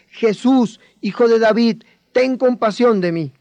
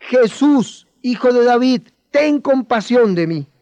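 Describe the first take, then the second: First: A bit louder, calling out for attention; louder plea. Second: Higher and louder, crying out, slowing at the end; loud plea. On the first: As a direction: call to him so he turns. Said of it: "vas a hablar más fuerte". (súplica en voz más alta) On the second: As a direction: shout it so Jesus must hear. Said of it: "Dilo más fuerte". (grito de súplica más fuerte) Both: Shown as a demonstration.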